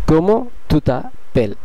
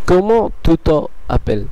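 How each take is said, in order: First: The vowel before 'appelles' is dropped and linked. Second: The vowel before 'appelles' is kept separate. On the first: The speaker calls it right. "Apostrophe বসে যাবে এবং এর উচ্চারণটি ... বদলে" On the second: The speaker calls it wrong. "কিন্তু এটি ভুল।"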